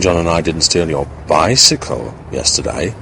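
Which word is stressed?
bicycle. The word bicycle is stressed. Something else was stolen instead. "suggesting that we may have stolen something else"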